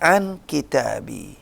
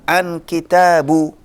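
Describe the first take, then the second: First: The word kitab ends with an i vowel. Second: The word kitab ends with a u vowel. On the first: The speaker calls it right. "Jadi harus dibaca" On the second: The speaker calls it wrong. "Nggak bisa kita baca"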